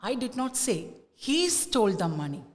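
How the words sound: The stress falls on the word he. "the stress is on he"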